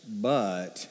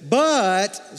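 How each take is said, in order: First: "but" dropped low and soft, letdown; deflated but. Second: A lift of hope on but; hopeful, rising "But". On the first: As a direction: let the "but" sink, disappointed. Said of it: "that's like a". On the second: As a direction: say but like a lifeline. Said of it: "You have to say it like this". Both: Shown as a demonstration.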